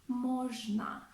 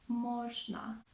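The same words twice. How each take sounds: Both takes have the same delivery.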